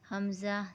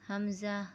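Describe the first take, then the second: No difference in how they are said.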